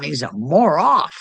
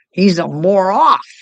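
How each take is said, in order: First: Said in the usual way. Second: He's a more off, "off" hit loud and high; coined word. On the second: Shown as a demonstration. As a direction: punch "more off" as a made-up word. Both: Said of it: "That's my made up word".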